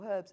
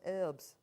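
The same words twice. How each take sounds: First: It is said in a British way. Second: It is said in an American way.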